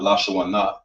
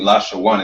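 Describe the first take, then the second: First: The word ends with an extra final vowel. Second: The word ends without a final vowel. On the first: The speaker calls it wrong. "and not Lashawana" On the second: The speaker calls it right. "you're reading Lashawan"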